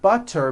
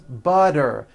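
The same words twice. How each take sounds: First: The middle consonant is a crisp T. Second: The middle consonant is a voiced D.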